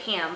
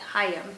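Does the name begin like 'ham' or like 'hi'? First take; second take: ham; hi. First: The name is said with a short 'ha' vowel. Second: The name begins with a 'hi' sound. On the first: This is how the speaker has always said it. "I've always pronounced it Ham" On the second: This is how the speaker thinks it is really said. "but I think it's like Hi, Hi, Hayam"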